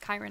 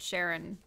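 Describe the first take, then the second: First: The name does not begin with a 'sh' sound. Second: The name begins with a 'sh' sound. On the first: The speaker calls it right. "I think it's Chiron" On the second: The speaker calls it wrong. "I always pronounced it Sharon when I was little"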